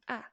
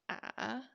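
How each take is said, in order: First: The pitch falls quickly and sharply. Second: The pitch falls and then rises. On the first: "Second one is ah, ah, falling" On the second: "falling and rising"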